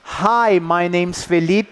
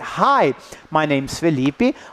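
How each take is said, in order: First: Every word gets the same even stress. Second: Only the important content words are stressed. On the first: The speaker calls it wrong. "So I don't say" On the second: The speaker calls it right. "I say"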